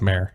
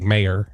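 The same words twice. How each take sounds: First: The word is said with one syllable. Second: The word is said with two syllables. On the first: The speaker calls it right. "It's mayor" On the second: The speaker calls it wrong. "Just like mayor is not right"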